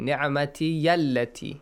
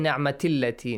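First: A y sound links the two words. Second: The second word starts with a bare vowel. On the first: The speaker calls it right. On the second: The speaker calls it wrong. "do not say ni'mati allati"

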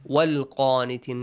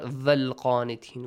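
First: The word begins with a w sound. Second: The word begins with a v sound. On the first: The speaker calls it right. "Sometimes wow is also important" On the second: The speaker calls it wrong. "not valqanitin. We don't have the"

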